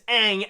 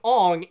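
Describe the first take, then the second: First: The vowel is an open 'ah' sound. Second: The vowel is a rounded 'on' sound. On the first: The speaker calls it right. "his name is Aang" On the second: The speaker calls it wrong. "it sounds more like a sound effect than an actual name"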